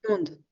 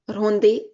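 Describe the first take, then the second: First: The word ends on the d with no vowel. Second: An extra vowel is sounded after the final d. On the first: The speaker calls it right. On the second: The speaker calls it wrong.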